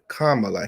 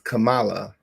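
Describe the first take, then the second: First: The first part sounds like the word comma. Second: The first part does not sound like comma. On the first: The speaker calls it right. "like a comma" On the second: The speaker calls it wrong. "the way you tend to like pronounce it"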